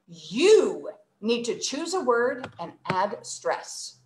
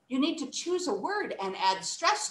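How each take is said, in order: First: The word 'you' carries strong extra stress. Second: The word 'you' is said without extra stress. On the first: The listener is being scolded. "I used the word you. That's the one that I added extra tone to" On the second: It is a neutral instruction. "if I just say it naturally"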